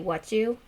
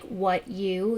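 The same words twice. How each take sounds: First: The t and y merge into ch. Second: The t and y sounds stay separate. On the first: "you make the C H sound" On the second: "instead of saying like"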